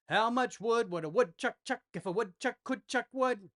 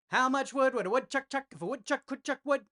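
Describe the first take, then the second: First: It is said at a medium pace. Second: It is said at a fast pace.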